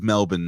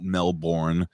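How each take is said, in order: First: It is said with the local pronunciation. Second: It is said with a non-local pronunciation. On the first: The speaker calls it right. "It is Melbourne" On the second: The speaker calls it wrong. "not Melbourne"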